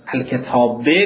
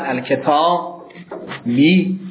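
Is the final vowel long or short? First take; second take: short; long. First: The final vowel is short. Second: The final vowel is lengthened. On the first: "از کسره یا" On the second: "از کسره یا"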